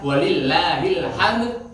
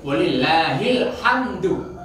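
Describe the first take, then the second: First: The last word ends with a consonant. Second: The last word ends with a vowel. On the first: "Kalau diwakafkan"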